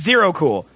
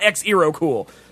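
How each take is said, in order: First: The name starts with a plain z sound. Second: The name starts with an 'eks' sound. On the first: The speaker calls it right. "I'm right because it's Zero Cool" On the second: The speaker calls it wrong. "You're wrong because it's not X-Ero Cool"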